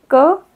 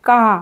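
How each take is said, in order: First: क said short with no stretch; short a against long aa. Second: का with the aa stretched long; long aa against short a. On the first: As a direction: clip the vowel of क short. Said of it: "ज़्यादा खींच के बोला जाएगा". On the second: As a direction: pull out the aa of का. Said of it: "खींच के बोला जाएगा". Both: Shown as a demonstration.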